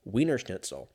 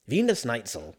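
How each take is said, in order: First: Said in the usual way. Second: "Wiener Schnitzel" said German-style, V and snaitsl; German-ish Wiener Schnitzel. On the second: Shown as a demonstration. Correcting himself, mock German "Wiener Schnitzel". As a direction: lean into a German "Vee-ner Schnaitzel". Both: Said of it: "Did I say Der Wiener Schnitzel?".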